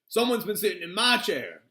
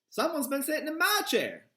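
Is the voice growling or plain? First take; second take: growling; plain. First: It is growled in Papa Bear's voice. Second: It is said plainly in Mama Bear's voice.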